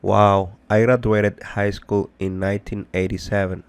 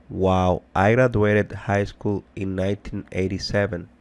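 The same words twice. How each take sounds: The two takes are said the same way.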